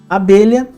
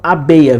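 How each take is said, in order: First: The middle sound is a palatal lh consonant. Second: The middle sound is a simple y glide. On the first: This is the standard form. "no português padrão" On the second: This is the simplified non-standard form. "ele teve essa assimilação e ficou abeia, ficou uma pronúncia mais simples"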